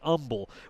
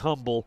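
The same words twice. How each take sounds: First: The opening H sound is silent. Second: The opening H sound is pronounced. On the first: This is how the local people say it. "with a silent H" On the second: This is how the spelling suggests it. "It looks like Humble"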